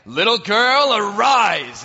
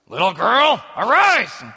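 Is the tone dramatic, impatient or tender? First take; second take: dramatic; impatient. First: It is said like a grand magic incantation. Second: It is said like an impatient parent waking a child.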